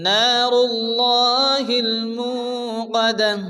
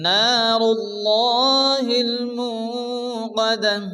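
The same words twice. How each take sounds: The two takes are said the same way.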